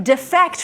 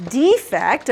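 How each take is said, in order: First: "defect" said dih-FECT; "defect" with weak first syllable, stressed FECT; stress on second syllable. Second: "defect" said DEE-fect; "defect" with long EE up front, stressed; stress on first syllable. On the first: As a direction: hit FECT in "defect", the verb. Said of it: "from the first syllable to the second syllable". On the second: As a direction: hit DEE in "defect", the flaw. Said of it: "you're changing the emphasis". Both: Shown as a demonstration.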